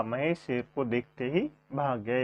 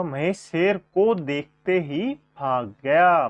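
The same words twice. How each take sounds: First: Said in the usual way. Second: Slow, clear, every word spelled out for the class; slow, deliberate teacher's read; slow dictation. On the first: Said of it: "इसका शुद्ध वाक्य होगा". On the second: Shown as a demonstration. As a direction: dictate the corrected sentence slowly. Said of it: "Mahesh का शुद्ध वाक्य होगा".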